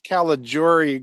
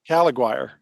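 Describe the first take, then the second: First: The surname is said with an Italian pronunciation. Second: The surname is said with an anglicized pronunciation.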